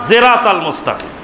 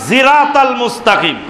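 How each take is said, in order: Both takes have the same delivery.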